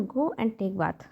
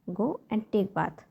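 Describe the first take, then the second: First: Said in the usual way. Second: Each word slow and spaced for learners; very slow model repeat. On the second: Shown as a demonstration. Teacher to parents, repeating the phrase very slowly. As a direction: drag it out slowly so a parent can copy. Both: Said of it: "तो आपको बोलना है".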